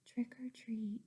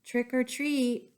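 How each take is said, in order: First: Whispered trick or treat; boy asking for candy very softly. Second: Normal voice, a bit louder; boy trying again a little louder. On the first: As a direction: barely breathe the words. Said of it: "so he said very softly". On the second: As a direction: speak up a little. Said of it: "He said a little louder". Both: Acted.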